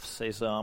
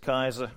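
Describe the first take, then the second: First: The name is pronounced the Dutch way. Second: The name is pronounced in a non-Dutch way. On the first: The speaker calls it right. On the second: The speaker calls it wrong.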